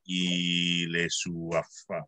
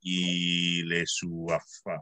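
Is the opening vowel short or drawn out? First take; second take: drawn out; drawn out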